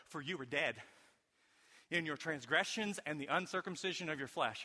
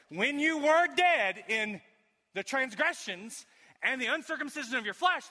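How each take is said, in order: First: Said in the usual way. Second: Forceful preached reading. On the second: Shown as a demonstration.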